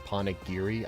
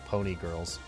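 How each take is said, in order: First: The word ends with the sounds 'giri'. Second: The word ends with the sounds 'girls'. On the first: The speaker calls it right. "I didn't know they were Ponagiri" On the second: The speaker calls it wrong. "as a kid, I pronounced them Pony Girls"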